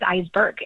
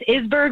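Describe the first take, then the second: First: The first vowel is a long i sound. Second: The first vowel is a short i sound. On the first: The speaker calls it right. "you kind of make it like a long I" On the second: The speaker calls it wrong. "Some people think it's Isberg"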